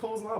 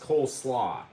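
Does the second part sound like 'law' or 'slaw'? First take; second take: law; slaw. First: The s sound ends the first word: Cole's law. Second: The s sound starts the second word: cole slaw. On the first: The speaker calls it wrong. "apparently I'm saying it wrong" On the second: The speaker calls it right. "It's Cole Slaw"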